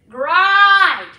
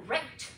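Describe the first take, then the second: First: GRIND with a heavy Scottish R, drawn out; loud, slow Scottish GRIND; Scottish emphasised R. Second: Said in the usual way. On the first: Shown as a demonstration. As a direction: hit the R in GRIND like a Scot. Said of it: "much more emphasis on the R sound". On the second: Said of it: "instead of great".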